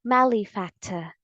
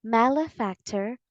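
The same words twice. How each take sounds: First: Malefactor ending in "tuh", no R; British pronunciation. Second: Malefactor with a clear R at the end; American pronunciation. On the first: Teacher offers the second correct option, British pronunciation. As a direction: drop the final R of malefactor, British style. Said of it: "if you want the British English pronunciation". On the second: Teacher repeats the correct pronunciation, American pronunciation. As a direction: say malefactor ending in a sounded American "ter". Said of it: "the correct pronunciation of this word". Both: Shown as a demonstration.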